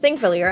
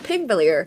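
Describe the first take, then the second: First: The word begins with a th sound. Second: The word begins with a p sound. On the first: The speaker calls it right. "it's pronounced Thingvellir" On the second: The speaker calls it wrong. "I used to think it's pronounced Pingvellir"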